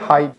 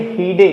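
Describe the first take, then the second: First: The final e is silent. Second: The final e is pronounced as a vowel. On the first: The speaker calls it right. "इसको बोलेंगे हाइड" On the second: The speaker calls it wrong. "बहुत सारे बच्चे पढ़ेंगे हीडे, लेकिन हीडे नहीं है"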